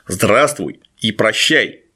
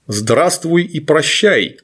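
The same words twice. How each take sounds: First: Low, slow gurgling monster repeat; slowly gurgle it low and menacing. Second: Slow gurgling monster greeting. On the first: Retold or imitated. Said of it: "булькающий голос". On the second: Acted. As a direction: drag it out in a wet gurgle. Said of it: "произнёс булькающий голос".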